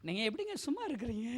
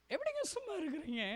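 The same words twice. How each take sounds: First: Said in the usual way. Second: High, soft, pleading question; tearful plea. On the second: Real, not acted. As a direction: ask it in a thin weepy voice. (கெஞ்சும் அழுகுரலில் மெதுவாக)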